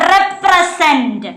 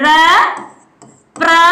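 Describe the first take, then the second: First: Said in the usual way. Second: represent slowly split into three syllables. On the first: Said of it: "എത്ര syllable ആണ്". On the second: Shown as a demonstration. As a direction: say represent as re, pre, sent with long pauses between. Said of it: "എത്ര syllable ആണ് ഇതുള്ളത്".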